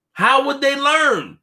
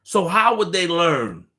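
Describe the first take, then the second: First: "How would they learn?" raised high, slow, louder on "learn"; stressed repeat. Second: Said in the usual way. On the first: Real, not acted. Asking viewers how critics grow, "How would they learn?" high and slow.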